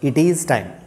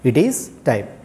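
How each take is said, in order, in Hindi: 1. "It" और "is" अलग-अलग बोले जाते हैं। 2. "It" और "is" अलग-अलग बोले जाते हैं।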